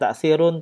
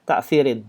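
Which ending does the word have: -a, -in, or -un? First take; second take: -un; -in. First: The word ends with the sound -un. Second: The word ends with the sound -in. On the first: "tidak ta'thirun" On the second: "tidak ta'thirin"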